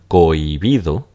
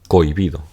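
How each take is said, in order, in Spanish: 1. La o y la i caen en sílabas separadas. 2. La o y la i se unen en una sola sílaba. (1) "donde esta es una I natural" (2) "lo común es pronunciarla cohibido, como un diptongo"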